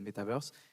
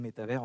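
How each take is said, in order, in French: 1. Le mot se prononce avec des sons anglais. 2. Le mot se prononce avec des sons français. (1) "d'où la prononciation anglaise" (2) "en français"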